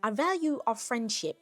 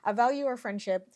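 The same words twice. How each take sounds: First: It is said in an attempted Australian accent. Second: It is said in the speaker's ordinary accent. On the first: "Should I be doing an Australian accent?" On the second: "I can't do Australian. I'm sorry. I'm gonna stop"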